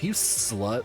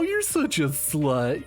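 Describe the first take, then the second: First: It is said in a harsh, aggressive tone. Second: It is said in a joking, playful tone.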